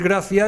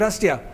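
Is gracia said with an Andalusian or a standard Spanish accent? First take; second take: standard Spanish; Andalusian. First: It is said with a standard Spanish pronunciation. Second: It is said with an Andalusian pronunciation. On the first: This is the expected way to say it. "en vez de decir gracia" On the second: This is how the speaker actually said it. "he dicho gracia"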